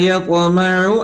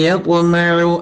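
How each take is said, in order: No difference in how they are said.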